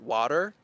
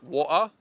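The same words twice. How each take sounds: First: It ends with an audible R sound. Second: The T in the middle is dropped. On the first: "an American would say water" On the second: "unlike British, they would say like water"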